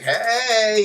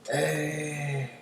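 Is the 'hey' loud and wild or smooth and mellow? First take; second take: loud; mellow. First: It sounds like a loud, wild party shout. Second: It sounds smooth and mellow, laid-back.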